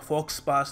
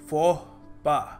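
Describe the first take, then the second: First: The x and s sounds are pronounced. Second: The x and s sounds are left silent. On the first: The speaker calls it wrong. "नहीं है" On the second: The speaker calls it right. "Pronounce करने का सही तरीका है"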